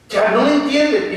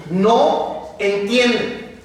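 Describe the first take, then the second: First: Said in the usual way. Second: "no entiende" drawn out very slowly; slow emphasis. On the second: Shown as a demonstration. Preacher to congregation, slow stressed "no entiende". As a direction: stretch out "no entiende" slowly for weight.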